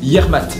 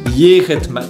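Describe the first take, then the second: First: The phrase is clipped to two syllables. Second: The phrase is said in full, three syllables. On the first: "en abrégé, ils le disent Yermat" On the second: "avec ta prononciation qui est donc en fin de compte Yeretmat"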